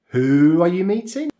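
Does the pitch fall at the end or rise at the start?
rises at start. The pitch rises on the first word, who. The speaker is confirming what was heard and shows surprise. "it's rising on the W H question. So the first word"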